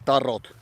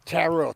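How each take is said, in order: First: It is said with a Finnish accent. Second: It is said with an American accent.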